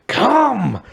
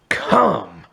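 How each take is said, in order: First: It is said very loudly, almost shouted. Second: It is said louder than normal speech.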